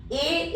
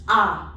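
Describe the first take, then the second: First: Said in the usual way. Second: A said as an open "ah"; French A. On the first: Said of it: "A is always pronounced as A". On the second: Shown as a demonstration. Teacher showing the French vowel, A pronounced "ah". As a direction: say A as French "ah", not "ay". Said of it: "always pronounced as A".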